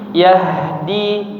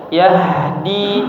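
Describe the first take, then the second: No difference in how they are said.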